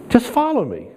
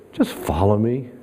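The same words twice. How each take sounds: First: Higher, stressing follow; emphatic repeat. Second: Said in the usual way. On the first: Shown as a demonstration. Preacher repeating Jesus' words to the church, lifted and firm. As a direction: lift the line and lean on follow.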